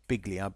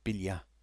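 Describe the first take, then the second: First: The name is said the way it is spelled. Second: The name is said the native way. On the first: "it's spelt Biglia" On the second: "I think they pronounce it Biglia"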